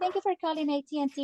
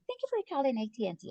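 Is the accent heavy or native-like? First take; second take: heavy; native-like. First: It is said with a heavy foreign accent. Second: It is said with a native-like accent. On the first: The caller cannot understand the operator. The speaker calls it wrong. "You have too much accent" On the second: The caller is satisfied with the operator. The speaker calls it right. "they want to listen to a person like"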